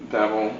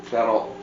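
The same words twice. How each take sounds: The two takes are said the same way.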